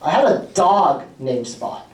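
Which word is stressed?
dog. The word 'dog' carries the main stress. The pet was a dog, not another animal. "Spot is not a cat, correct"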